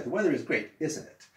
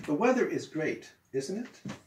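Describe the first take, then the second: First: Tag "isn't it?" falling, confident. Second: Tag "isn't it?" rising at the end; wrong rising tag. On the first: Teacher shows the right falling tag on "isn't it?". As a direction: voice goes down on "isn't it?". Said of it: "you don't go up". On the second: Teacher shows the wrong rising tag on "isn't it?". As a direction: voice goes up on "isn't it?". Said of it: "No, I'm sorry". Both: Shown as a demonstration.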